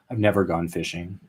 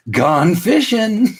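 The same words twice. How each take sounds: First: Said in the usual way. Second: High, drawn-out "gone fishing" sing-out; playful sign-off. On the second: Pretend. Host signing off from social media, playful sing-out. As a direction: sing it out like a cheery shop sign.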